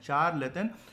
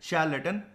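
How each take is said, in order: First: The word begins with a 'ch' sound. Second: The word begins with an 'sh' sound. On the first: "चार plus लट्टू" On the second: "pronunciation एकदम सही रखनी है तो"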